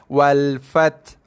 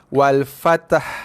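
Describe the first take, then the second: First: The final h sound is not pronounced at all. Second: The t and h are fused into one syllable. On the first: "Ha tak bunyi langsung" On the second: "ta mati dengan ha mati dicantumkan menjadi satu bunyi"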